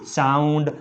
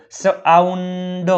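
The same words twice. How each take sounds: First: Said in the usual way. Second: સાઉન્ડ drawn out in parts, સ-આઉન-ડ; teacher slowly sounding out સાઉન્ડ; sounded out. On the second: Shown as a demonstration. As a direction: stretch સાઉન્ડ slowly on a held note. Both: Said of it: "તેનો ઉચ્ચાર આવ થાય છે".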